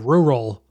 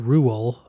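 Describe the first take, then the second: First: The second R sound is pronounced. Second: The second R sound is dropped. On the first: "or I do a rural, depending on how I'm feeling" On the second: "I either do an R-U-A-L"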